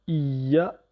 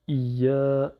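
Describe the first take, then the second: First: The final vowel is short. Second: The final vowel is drawn out long. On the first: "le ya avec la shadda plus le a" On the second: "Le a allongé par le alif"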